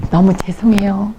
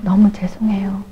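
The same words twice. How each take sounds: First: Said in the usual way. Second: Imitating a breathy, voiceless "너무 죄송해요"; whispered apology. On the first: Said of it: "그래서 내가". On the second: Elder apologizing to the evangelist, whispered. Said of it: "너무 죄송하다고".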